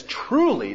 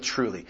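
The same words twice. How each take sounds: First: "truly" lifted high and weighted; emphasis on truly. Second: Said in the usual way. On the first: Shown as a demonstration. Preacher stressing Jesus' word to the congregation, "truly" lifted high. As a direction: lean up hard on "truly". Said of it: "just to really emphasize the reality". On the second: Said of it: "this extra emphasis by beginning with".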